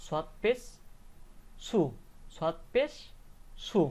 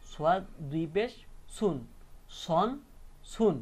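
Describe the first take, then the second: First: Higher rising "পেশ", pause, then "সু"; without tanween. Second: Spell, then separate beats "সুন", "সন", "সুন"; tanween pronunciation. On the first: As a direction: leave "সু" open, no final n. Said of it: "তাহলে উচ্চারণটা শুধু কি হতো". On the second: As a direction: close "সুন" on a clear n. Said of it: "উচ্চারণটা কি হবে". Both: Shown as a demonstration.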